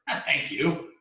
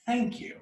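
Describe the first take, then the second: First: "thank you" higher, with a rising end; wrong way of saying it. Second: "Thank" very high, "you" falling away; right way of saying it. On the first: Guru mimicking the tired seeker's mistake, rising "thank you". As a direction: lift "thank you" as if questioning it. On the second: Guru correcting how the seeker says it, high falling "Thank you". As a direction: start "Thank" high and let "you" drop. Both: Acted. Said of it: "it's a difference in how you're saying it".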